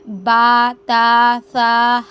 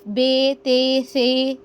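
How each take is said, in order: First: The letter names end in an 'a' vowel. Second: The letter names end in an 'e' vowel. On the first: The speaker calls it right. "अरबी लब्बो लहजे में हमने क्या करना है" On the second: The speaker calls it wrong. "हम यूं अदा करते हैं उर्दू लब्बो लहजे की तरह"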